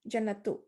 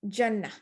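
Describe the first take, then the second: First: The word ends with a t sound and vowel. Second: The word ends with an h sound. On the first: The reader continues without stopping. "If you keep going" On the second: The reader stops on the word. "But if you stop, you're going to say jannah"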